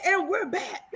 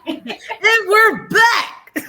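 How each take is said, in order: First: Show host announcement. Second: High, slow, drawn-out host voice; show host announcement. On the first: Retold or imitated. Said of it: "I said". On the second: Acted. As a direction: stretch it like a TV host.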